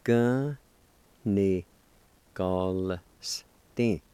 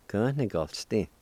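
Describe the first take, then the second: First: Each syllable on its own with long pauses; teacher sounding out a word piece by piece; syllable-by-syllable demonstration. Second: Said in the usual way. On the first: Shown as a demonstration. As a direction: break the word into slow, separate syllables. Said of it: "You can pronounce the L with the G A like this". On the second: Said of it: "like this".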